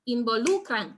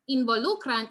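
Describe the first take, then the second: First: "involucran" with the second-to-last syllable, lu, emphasized; stress on marked syllable. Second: Said in the usual way. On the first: Shown as a demonstration. Teacher demonstrating the finger-snap trick, "involucran" stressed on lu. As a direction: hit LU in "involucran". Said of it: "that is stressed". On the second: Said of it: "So in the case of".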